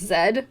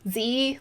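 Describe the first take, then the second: First: The letter is not said as 'zee'. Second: The letter is said as 'zee'. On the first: This is the non-American way of saying the letter. "not Z" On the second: This is the American way of saying the letter. "I have an American accent, so I pronounce the letter Z, Z, like Z E E"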